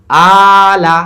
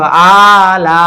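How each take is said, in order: First: আলা with loud long আ and short লা; stretch on first only. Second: আলা with both আ and লা held long; two stretches, mistaken. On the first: Teacher giving the correct reading, only আ stretched in আলা. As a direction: hold আ, then cut লা short. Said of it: "কিন্তু লামে টান নেই". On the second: Teacher showing what two stretches would sound like, both vowels long in আলা. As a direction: drag out both syllables of আলা. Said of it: "আমি যদি দুইটা টান দিতাম". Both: Shown as a demonstration.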